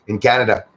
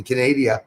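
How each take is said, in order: First: Said in the usual way. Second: "Canada" said as ka-NAY-dee-uh; "Canada" bent into "Canadia"; mispronounced Canada. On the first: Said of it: "for Pete's sakes". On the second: Real, not acted.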